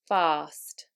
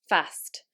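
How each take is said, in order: First: The vowel is a long 'ah' sound. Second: The vowel is a short 'a' sound. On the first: This is the modern southern British standard accent. "the following words are actually said with a long R" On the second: This is the northern English or American accent. "in the north of England, they are said with short ah"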